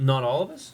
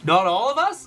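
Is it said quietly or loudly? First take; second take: quietly; loudly. First: It is said quietly. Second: It is said loudly.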